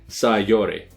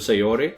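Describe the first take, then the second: First: The name is said with a Japanese pronunciation. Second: The name is said with an English pronunciation. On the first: "Japanese pronunciation would, uh, estimated guess, would say Sayori" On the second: "there's an English pronunciation which is closer to Sayori"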